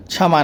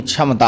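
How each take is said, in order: First: "क्षमा" said as kshama without ta; the incorrect "क्षमा", two syllables; wrong form. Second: "क्षमता" said as kshamta with ta; the correct "क्षमता", ending in ta; correct form. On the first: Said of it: "क्षमा नहीं". (गलत रूप "क्षमा") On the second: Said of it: "क्षमता होता है". (सही रूप "क्षमता") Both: Shown as a demonstration.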